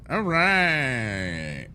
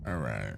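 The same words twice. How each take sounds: First: Perked-up all right. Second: "All right" mumbled low and soft, to himself; low mutter. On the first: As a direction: bounce "All right" up brightly as a restart. Louder, higher take right after. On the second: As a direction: drop "All right" into a quiet low murmur. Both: Real, not acted.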